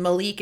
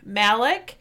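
First: Malik as "muh-LEEK", second syllable stressed; pronouncing Malik. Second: Malik as "MAL-ick", first syllable stressed; pronouncing Malik. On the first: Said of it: "and Malik is the brother". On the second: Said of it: "pronouncing it the way that she wants". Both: Shown as a demonstration.

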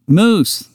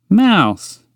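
First: "Moose" said with a long oo, pointing at the other; high "Moose" with a long oo and no ow; "Moose" as in a long oo, slow and high; "Moose" clearly. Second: "Mouse" said with a wide ow, pointing to itself; high "Mouse" with a round ow sound; "Mouse" with a wide ow, slow and high; "Mouse" clearly. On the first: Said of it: "pointing at Montgomery". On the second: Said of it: "pointing to itself". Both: Acted.

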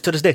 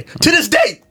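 First: Said in the usual way. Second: High-pitched indignant yell; exasperated outburst. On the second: Acted. Storyteller venting about containers that never came, exasperated yell. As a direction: burst out louder, voice jumping up. Repeats it as outburst, then apologises.

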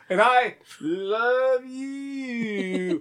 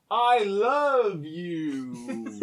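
First: Very slow, drawn-out stiff reply; mock wooden declaration; bad wooden acting. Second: Very slow, stilted line reading; mock clumsy love line; bad wooden acting. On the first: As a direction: overplay the answer like a bad soap actor. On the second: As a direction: deliver it like a terrible soap actor. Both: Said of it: "really bad at acting".

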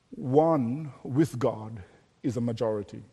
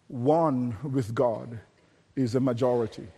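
First: Said in the usual way. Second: "One with God" drawn out very slowly, then "is a majority" soft; slow each word down to drive it home; the saying repeated slowly for weight; slow emphatic repeat. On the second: Shown as a demonstration.

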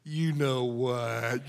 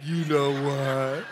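First: Low, slow, soft, knowing; sly parrot. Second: Low, slow with a laugh in it; parrot's knowing punchline, low and slow with a laugh; sly parrot. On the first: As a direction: drag it out low and slow, full of meaning. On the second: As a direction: repeat it slower, chuckling. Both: Retold or imitated. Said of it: "the bird goes".

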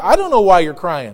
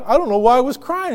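First: Lower, matter-of-fact reply; lightly voiced God. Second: Slightly lifted, puzzled admission; lightly voiced believer. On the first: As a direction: answer lightly as God, pitch dropping. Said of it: "he says, and he'll tell you". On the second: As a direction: lightly play someone looking back in relief. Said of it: "You'd be like".

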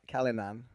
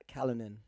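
First: Callanan with a full, clearly pronounced final "nan"; emphasis on the nan. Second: Callanan with a softer, reduced final "nan"; imitating dad's pronunciation. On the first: Shown as a demonstration. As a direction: lean on the "nan" ending of Callanan. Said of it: "putting too much emphasis on the nan". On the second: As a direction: say Callanan quietly, swallowing the last syllable. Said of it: "'Cause he'd be like".

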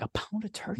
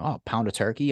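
First: High, disbelieving repeat of "A pound of turkey?" with "pound" lifted high and soft; incredulous mock echo. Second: Said in the usual way. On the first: Mocking a customer's order to a friend, in high incredulous disbelief. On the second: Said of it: "I'm like".

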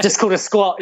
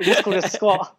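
First: Said in the usual way. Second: Laughing through the words. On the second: Shown as a demonstration. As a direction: repeat it while chuckling.

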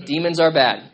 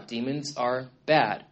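First: Louder, emphatic repeat landing the joke; punchline repeat. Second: Slow, low, matter-of-fact delivery; slow deadpan statement. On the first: Preacher repeating his point for a laugh, louder and emphatic. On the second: Preacher stating the obvious to the congregation, slow and deadpan. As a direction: lay it down slowly like an obvious fact. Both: Shown as a demonstration. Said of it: "There's your theology lesson for the day".

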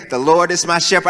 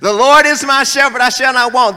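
First: Said in the usual way. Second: Louder, higher scripture recitation. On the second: Retold or imitated. Child reciting louder so the elders can hear, loud. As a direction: belt the verse out for the back row.

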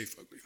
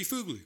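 First: Fugly said FUG-lee; Fugly with the uh of "fudge"; funner pronunciation. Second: Fugly as FOOG-lee, pitched up; Fugly with the oo of "food"; possible Japanese pronunciation. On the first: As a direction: say Fugly with a short uh. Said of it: "It sounds funner". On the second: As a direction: say Fugly high with a long oo. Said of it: "how they pronounce U's in Japan". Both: Shown as a demonstration.

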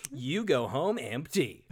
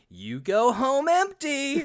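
First: "You go home empty" said slowly and evenly, falling on "home"; dry and slow, "You go home empty" landing down on "home"; deadpan sarcastic try. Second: "you go home empty" drawn out slowly, pitched higher and louder, "empty" rising; emphatic sarcastic try. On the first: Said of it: "I honestly don't know". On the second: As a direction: lean hard and slow on "you go home empty", ending up on "empty". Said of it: "how do you make it emphatic and sar". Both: Shown as a demonstration.

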